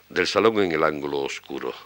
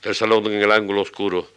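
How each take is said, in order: First: It is recited naturally, without a pounding beat. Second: It is recited with a heavy, thumping regular beat. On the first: The speaker calls it right. "Becker debió decir algo así como" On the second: The speaker calls it wrong. "Pom, pom, pom, pom, pom, eso así"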